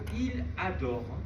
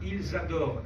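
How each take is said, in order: First: No z sound links the two words. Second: A z sound links the two words. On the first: One person adores it. The speaker calls it wrong. "si vous ne faites pas la liaison" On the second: Several people adore it. The speaker calls it right. "et on doit faire la liaison"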